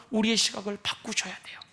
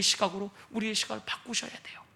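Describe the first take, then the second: First: Hushed whisper, unvoiced; whispered urging. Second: Much softer, near whisper; quiet repeated exhortation; hushed urging. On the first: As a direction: drop to a whisper to press the point. Preacher urging softly. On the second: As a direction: let it fall to a hush. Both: Real, not acted.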